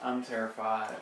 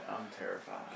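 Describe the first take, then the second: First: Said in the usual way. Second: Hushed whisper of fear. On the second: Pretend. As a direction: whisper it, scared.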